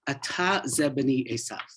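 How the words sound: It is said with question intonation. He is asking whether this is his son. "we would read this as a question"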